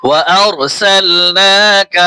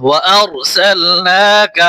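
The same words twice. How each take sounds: Both takes have the same delivery.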